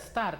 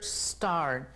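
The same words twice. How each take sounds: First: An extra e vowel comes before the s. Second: The word begins directly with the s sound. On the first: The speaker calls it wrong. "No vamos a anteponerle una E para decir start" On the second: The speaker calls it right. "no agregándole otro, ni otra letra, y vamos a decir start"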